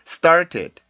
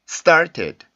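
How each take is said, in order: The two takes are said the same way.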